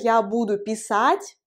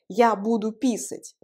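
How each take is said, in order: First: The last word is stressed on its second syllable. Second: The last word is stressed on its first syllable. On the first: It means I will write. "je vais écrire" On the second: It means I will pee. "ça signifie je vais faire pipi"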